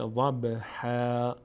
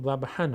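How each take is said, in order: First: ضبحا ending in a long open -haa, no n; ضبحا with tanween turned to long a; pausal reading. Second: ضبحا ending in a short nasal -han; ضبحا with tanween pronounced; continued reading. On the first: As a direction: stretch the last vowel of ضبحا slowly. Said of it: "وقتی که بخوایم توقف بکنیم". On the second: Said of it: "اگر ادامه بدیم". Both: Shown as a demonstration.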